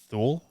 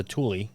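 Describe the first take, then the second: First: Thule said thool, one syllable with th; wrong Thule. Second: Thule said too-lee, two syllables; correct Thule. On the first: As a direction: say Thule as thool, rhymes with pool. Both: Shown as a demonstration. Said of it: "Which I always thought was pronounced".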